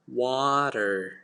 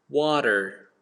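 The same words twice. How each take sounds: First: It is said in an American accent. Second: The same.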